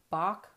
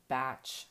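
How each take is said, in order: First: The name does not rhyme with 'match'. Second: The name rhymes with 'match'. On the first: The speaker calls it wrong. "I can't force myself to pronounce it that way" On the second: The speaker calls it right. "I'm really supposed to call them batch flower remedies"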